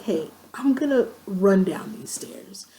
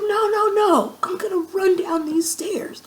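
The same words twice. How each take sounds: First: Said in the usual way. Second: High, loud mock protest, imitating her drunk self; drunken insistence. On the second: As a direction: overrule your friend in a high, excited voice. Drunkenly insisting over friend's objection.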